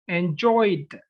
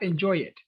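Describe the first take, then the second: First: The ending is a plain d with no extra syllable. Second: The ending is an extra syllable, like "enjoy it". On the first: The speaker calls it right. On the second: The speaker calls it wrong.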